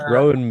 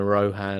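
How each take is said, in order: First: The name has no H sound in the middle. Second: The name has a hard H sound in the middle. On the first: The speaker calls it right. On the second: The speaker calls it wrong.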